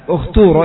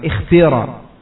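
First: The vowel after kh is a clear u. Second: The vowel after kh is a clear i. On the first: "di dhammah karena ta-nya di sini dhammah" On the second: "kasrah dengan kasrah yang khalisah"

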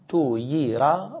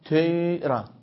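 First: A full oo sound comes before a full ee. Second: Only a slight hint of oo colours the ee. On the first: The speaker calls it wrong. "صرحت بالضمة والكسرة" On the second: The speaker calls it right. "ستقول اختيرة تي تيرة ليس تويرة"

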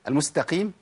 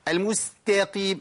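First: The vowel after the t is kept short. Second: The vowel after the t is drawn out long. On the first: The speaker calls it right. "هو في بعد التاء الف مش تاء قاف على طول؟" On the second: The speaker calls it wrong. "ليه تتعب نفسك وتتعب الفك وتكيد نفسك وتولد مدود؟"

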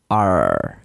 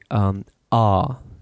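First: The R at the end is pronounced. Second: The R at the end is silent. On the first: The speaker calls it wrong. "you don't say ar, you know, I'm from California" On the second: The speaker calls it right. "So you say ah"

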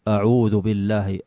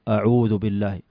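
No difference in how they are said.

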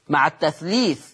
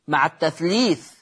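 The two takes are said the same way.

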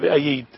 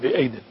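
First: The word has an extra y sound in the middle. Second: The word has a single y sound in the middle. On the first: The speaker calls it wrong. "لا أحد يقرأ بها" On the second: The speaker calls it right. "أنما يقرأ بأيد"

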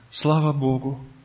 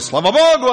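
First: It is said quietly with subdued energy. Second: It is said loudly and with exalted energy. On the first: The person is less confident that all is well. "А теперь потише голос" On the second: The person claims everything is going great. "До этого такие высокопарные слова были"

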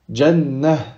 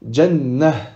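No difference in how they are said.

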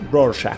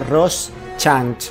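First: The middle is said as a single 'sh' sound. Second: The middle is read letter by letter as written. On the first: This is how the film says the name. "en la película lo pronuncian Rorschach. Se siente como un shack, como un SH" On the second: This is how the name is written. "se escribe Rorschach"

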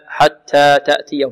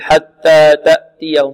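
First: The t sounds are lightly breathy. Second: The t sounds have no breathiness. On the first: The speaker calls it right. "همسا كما جاء عن القراء هكذا" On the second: The speaker calls it wrong. "بعض الطلاب يقول حتى تأتيهم خطأ"

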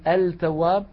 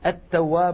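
First: The L is clearly pronounced before the T. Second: The L is merged into a doubled T. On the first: The speaker calls it wrong. "ولا نقول التواب" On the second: The speaker calls it right. "التاء من كلمة تفوز التواب مثلا"

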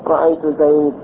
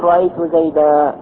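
First: The final word ends with a bare consonant. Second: The final word ends with a long 'a' vowel. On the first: This is the dialect usage of one tribe. "وربيعة تقف بالسكون" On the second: This is the widespread usage among most Arabs. "يبدلون تنوين المنصوب عند الوقف هذا ألفا"

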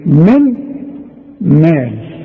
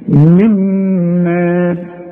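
First: The n is pronounced separately before the m. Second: The n merges into a doubled m sound.

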